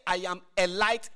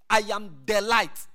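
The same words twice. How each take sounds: First: "a" said lightly, one of many lights; contrast take with "a". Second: "the" given weight as the only light; stress on THE. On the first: Preacher showing the wrong version, "a light", to compare. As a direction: set "a" against "the", rising at the end. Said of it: "He didn't say". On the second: Preacher stressing "the" so the congregation hears the difference. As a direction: lean on "the" in "I am the light". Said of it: "He didn't say, "I am a light". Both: Shown as a demonstration.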